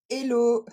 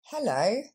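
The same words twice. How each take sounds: First: Hello said elo, no H; hello dropping the H, French style; hello, sans le H; French hello without H. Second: Hello with the H and stress on lo; hello, breathe the H, stress the lo; hello, H aspiré, accent sur lo; English hello. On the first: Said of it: "c'est pas hello". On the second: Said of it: "l'accent tombe sur la deuxième syllabe". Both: Shown as a demonstration.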